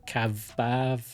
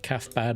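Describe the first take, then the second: First: The name has v sounds in place of 'th' and 'bd'. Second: The name ends with a clear 'bad' sound. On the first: "you changed the T H to a V and the B D to a V" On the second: "calf bad in English"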